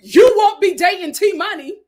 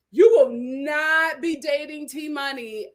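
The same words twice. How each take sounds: First: Louder, higher you won't be dating T Money; loud incredulous correction. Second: Slow, deliberate you will not be dating T Money; slow emphatic repeat; firm. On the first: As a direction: exclaim it in disbelief. Laughing at Deontay. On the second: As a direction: spell it out word by word. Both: Real, not acted.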